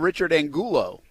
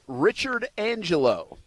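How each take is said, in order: First: The surname is said as Angulo. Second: The surname is said as Angelo. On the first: The speaker calls it right. "I think it's Angulo" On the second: The speaker calls it wrong. "I don't know why I read it like Ang- Angelo"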